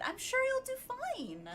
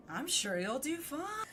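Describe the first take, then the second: First: High, bright peppy encouragement. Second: Dry sarcastic read of "I'm sure you'll do fine". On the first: Streamer demoing the peppy read for the game line: high peppy cheer. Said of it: "you gotta be peppy with it". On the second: Streamer contrasting the line with a sarcastic take: dry sarcasm. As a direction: say it like you don't mean it. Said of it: "Unless I said it more sarcastically". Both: Shown as a demonstration.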